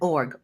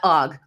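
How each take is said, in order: First: The r sound is clearly pronounced. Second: The r sound is dropped, Boston style. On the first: The speaker calls it right. "org, org" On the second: The speaker calls it wrong. "that Boston accent, not Og"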